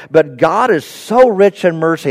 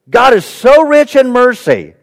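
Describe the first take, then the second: First: Said in the usual way. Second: "God is so rich in mercy" lifted higher, with weight on "so"; emphatic repeat. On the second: Shown as a demonstration. Preacher repeating a verse to his congregation, emphatic on "so rich". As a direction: drive home "so rich in mercy" in a raised voice.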